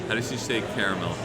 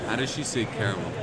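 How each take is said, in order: Both takes have the same delivery.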